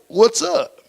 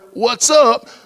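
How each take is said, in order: First: It is said at normal, softer volume. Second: It is said a little louder.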